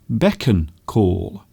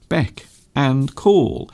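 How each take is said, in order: First: The middle sounds like 'on', joined to 'beck'. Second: The middle is a clear separate word 'and'. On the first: The speaker calls it wrong. "a lot of people actually mispronounce this phrase. They often say beckon call" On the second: The speaker calls it right. "But in fact it is beck and call"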